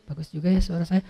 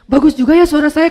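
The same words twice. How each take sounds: First: It is said quietly, as if inwardly. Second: It is shouted loudly.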